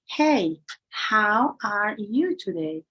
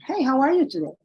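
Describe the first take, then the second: First: Each word is said separately, with small breaks. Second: The words run together without breaks. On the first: "instead of saying" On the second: "They connect the words"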